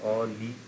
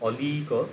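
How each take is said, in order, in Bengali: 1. তিনটি অক্ষরই হ্রস্ব। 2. দ্বিতীয় অক্ষরের স্বরটি দীর্ঘ, টানা উচ্চারিত হয়। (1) "তিনটেই শর্ট হচ্ছে" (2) "লিটা টান করছে"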